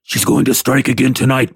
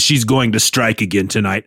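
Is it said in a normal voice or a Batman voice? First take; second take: Batman voice; normal voice. First: It is said in a gruff Batman voice. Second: It is said in his normal voice.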